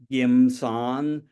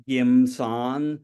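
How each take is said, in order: First: It is said in the speaker's home dialect. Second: It is said in the speaker's home dialect.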